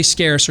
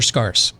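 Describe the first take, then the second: First: Said in the usual way. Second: "scarce" said with an AH vowel, like "scars"; alternative pronunciation. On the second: Shown as a demonstration. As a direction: say "scarce" to rhyme with "farce". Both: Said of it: "Do we know how that's pronounced".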